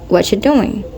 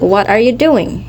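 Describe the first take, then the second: First: The words run together with one dropped. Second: Every word is said fully and separately. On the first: "you may hear" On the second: "instead of saying"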